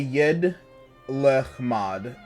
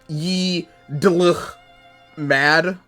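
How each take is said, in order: First: The name flows smoothly, split after Yed. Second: The name is broken into choppy, oddly split syllables. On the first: The speaker calls it right. "I say Yed Lechmad" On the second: The speaker calls it wrong. "I don't know how you would, like, smoothly say it that way, but I would sound stupid"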